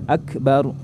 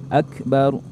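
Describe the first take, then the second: The two takes are said the same way.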